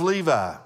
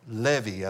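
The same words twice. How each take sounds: First: The name is said the usual English way. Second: The name is said the Hebrew way.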